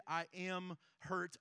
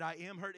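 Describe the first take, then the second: First: "I am hurt" drawn out slowly, word by word; slow, deliberate weight on each word of "I am hurt"; weighty identity statement. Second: Said in the usual way. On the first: Shown as a demonstration. Preacher turning a situation into an identity, "I am hurt" slow and weighty.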